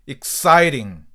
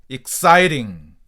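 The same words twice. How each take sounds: The two takes are said the same way.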